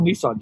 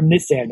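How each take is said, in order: First: It is said in a plain American way. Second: It is said in a Canadian way.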